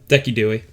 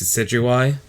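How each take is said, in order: First: The name is said as 'Decky Dewey'. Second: The name is said with its usual pronunciation.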